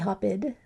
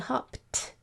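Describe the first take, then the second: First: The ending is pronounced as a separate id syllable. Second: The ending is a single t sound, no extra syllable. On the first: The speaker calls it wrong. "Doesn't sound like id. We don't say hop-id" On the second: The speaker calls it right. "We say hopped. So the sound that's coming out there is a t sound"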